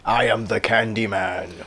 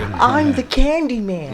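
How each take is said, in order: First: It is said in an ominous, horror-movie way. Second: It is said in a light, friendly way.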